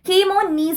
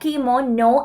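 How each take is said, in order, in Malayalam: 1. വാക്ക് 'nees' എന്ന ശബ്ദത്തിലാണ് അവസാനിക്കുന്നത്. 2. വാക്ക് 'no' എന്ന ശബ്ദത്തിലാണ് അവസാനിക്കുന്നത്. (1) "കീമോനീസ് എന്നല്ലാതെ" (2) "പറയാ കീമോനോ എന്നാണ്"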